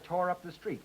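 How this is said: The verb tore carries clear stress. Up is an adverb. "Secondary stress now on tore"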